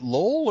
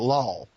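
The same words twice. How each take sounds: First: The O vowel is short. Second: The O vowel is long. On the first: "like a short O in LOL" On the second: "Is it a long O?"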